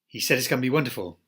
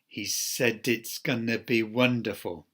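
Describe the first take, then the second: First: Words are squeezed together into very reduced sounds. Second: Words are linked with ordinary connected-speech reductions. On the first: "But the jungle form is" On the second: "there we have the connected speech rules applied"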